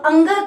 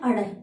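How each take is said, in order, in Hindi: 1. यह नाक से बोला जाता है, नासिक्य ध्वनि पर समाप्त होता है। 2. यह र जैसी फ़्लैप ध्वनि पर समाप्त होता है, नासिक्य नहीं। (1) "नाक से बोला जा रहा है" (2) "जो अपन सामान्यतः बोलते हैं"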